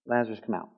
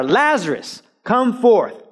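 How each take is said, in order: First: Soft, much softer ordinary call; just say it, no force; quiet plain say. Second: Raised, higher firm command; clear command. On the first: Shown as a demonstration. Pastor showing how Jesus could have said it softly, quietly. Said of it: "he could just say". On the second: Acted. Jesus commanding Lazarus out, firm and raised. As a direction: give the order, nothing else. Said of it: "The only words said are".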